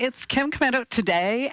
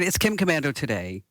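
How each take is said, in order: First: It is said in a put-on, gushing voice. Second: It is said in her normal voice.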